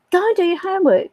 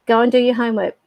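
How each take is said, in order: First: Much higher, imitated insistent order; retold exasperated parental reminder; nagging parent. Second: Mild, matter-of-fact telling-off; retold parent's first reminder; parental order. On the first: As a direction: nag a child in a raised pitch. Parent repeats order, more insistent. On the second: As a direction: tell a child to get on with it. Parent repeats order to child.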